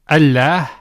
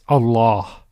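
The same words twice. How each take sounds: First: The double L is light and thin. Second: The double L is heavy and full. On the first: "instead of saying" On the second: "the lam is pronounced with tafkhim, with heaviness"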